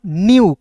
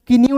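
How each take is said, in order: First: "न्यू" said "nyoo", starting straight on n; "न्यू" as one falling syllable, nyoo; silent k. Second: "कि न्यू" said "ki-nyoo", with an extra k syllable; "कि न्यू" as the wrong two-syllable reading; k wrongly sounded. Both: Shown as a demonstration. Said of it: "कि न्यू नहीं पढ़ेंगे".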